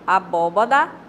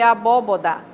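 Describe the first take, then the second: First: The third syllable has the vowel a. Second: The third syllable has the vowel o. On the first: The speaker calls it right. "é abobá" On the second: The speaker calls it wrong. "em vez de abóboda"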